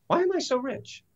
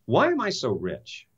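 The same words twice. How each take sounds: First: Higher, softer asking. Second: Said in the usual way. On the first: Shown as a demonstration. Speaker demoing the new question to himself, higher and softer. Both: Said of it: "What would the question be?".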